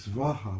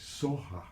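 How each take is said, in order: First: The first syllable has a hard v sound. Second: The first syllable is softer, with no v sound. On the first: This is the Sanskrit way of saying it. "which is a Sanskrit pronunciation" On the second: This is the Tibetan way of saying it. "Tibetans are a little softer. They say Soha"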